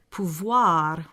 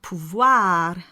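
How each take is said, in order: First: Pouvoir ending on a dark back ah. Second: Pouvoir ending on a bright front ah. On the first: Teacher shows the preferred dark ah. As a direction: say pouvoir with the darker ah. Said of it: "with the ah sound". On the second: Teacher shows the ah to avoid. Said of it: "not pouvoir with the ah sound". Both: Shown as a demonstration.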